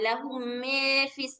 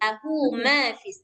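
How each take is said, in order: First: The vowel after m leans toward e. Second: The vowel after m is an open a. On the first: The speaker calls it wrong. "jangan lahu mefis" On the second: The speaker calls it right. "jangan terlalu miring"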